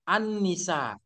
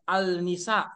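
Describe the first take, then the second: First: The article is pronounced with an N sound. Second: The article is pronounced with an L sound. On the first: The speaker calls it right. "Kalau dibaca tetap surah Quran surah An-Ni An-Nisa" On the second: The speaker calls it wrong. "Jangan juga baca berdasarkan Q S Quran surah Al Al Nisa. Ah, salah"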